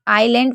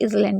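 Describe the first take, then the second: First: The word is said with no s sound. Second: The word is said with an s sound. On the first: The speaker calls it right. "आइलैंड पढ़ना चाहिए" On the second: The speaker calls it wrong. "लोग इजलैंड भी पढ़ देते हैं"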